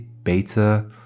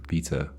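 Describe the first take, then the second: First: The first vowel is an 'ay' sound. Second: The first vowel is a long 'ee' sound. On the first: "some people say beta, which is always weird" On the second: "matches with other things like theta and beta"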